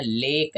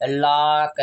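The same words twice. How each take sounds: First: लेक with a clear long AY; correct ay version. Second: "लॉक" opened into a long AA, laak; wrong aa version. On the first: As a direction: say लेक as English lake. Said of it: "हम इसको कहते हैं लेक". (लंबे ए से साफ़ "लेक") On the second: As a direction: stretch "लॉक" as a slow laak. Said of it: "आ के साथ बोलिए". ("लॉक" को लंबे आ से, लाक) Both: Shown as a demonstration.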